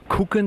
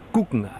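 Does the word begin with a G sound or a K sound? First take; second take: K sound; G sound. First: The word begins with a hard K sound. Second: The word begins with a soft G sound. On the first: This is the Prussian way of saying it. "das ist dann preisig" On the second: This is the Bavarian way of saying it. "der Bayer sagt gucken, mit G und nicht mit K"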